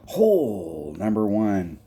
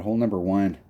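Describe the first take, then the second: First: "Hole number one" stretched out slowly, every word drawn long; slow drawn-out announcement. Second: Said in the usual way. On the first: Shown as a demonstration. Calling the first hole to his co-host, slowly drawn out.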